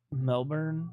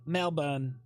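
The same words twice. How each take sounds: First: Melbourne with a hard American r, MEL-burn; American pronunciation. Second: Melbourne as MEL-bun, no r, unstressed ending; Australian pronunciation. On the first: Chat objects, streamer says Melbourne with American MEL-burn. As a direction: say Melbourne the American way, r fully sounded. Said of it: "Don't say Melbourne like that". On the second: Trying chat's way, Melbourne as Australian MEL-bun. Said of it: "should I say Melbourne?". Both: Shown as a demonstration.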